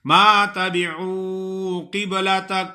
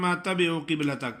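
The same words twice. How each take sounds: First: تَبِعُوا with عو stretched one alif; correct demo. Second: تَبِعُوا fast, madd on عو skipped; wrong rushed demo. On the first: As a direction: lengthen the عو in تَبِعُوا. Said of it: "تھوڑا سا کھینچنا ہے ایک الف کے برابر". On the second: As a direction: rush تَبِعُوا with a short u. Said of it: "کچھ لوگ ایسے پڑھتے ہیں". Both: Shown as a demonstration.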